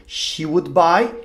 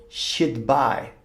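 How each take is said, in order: First: "She would buy" with would said in full; full uncontracted "She would buy"; full form. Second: "she'd buy" with she'd as one syllable, shid; contracted "she'd buy", shid bai; contracted form. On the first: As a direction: give "would" its own beat, wud. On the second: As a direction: fold would into a d sound, "she'd". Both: Shown as a demonstration. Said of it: "de forma contraída".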